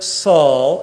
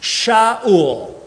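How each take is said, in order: First: The name begins with an s sound. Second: The name begins with an sh sound. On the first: "In English, we pronounce it Saul" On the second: "Saul's name in Hebrew"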